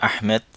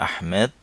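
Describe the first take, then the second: No difference in how they are said.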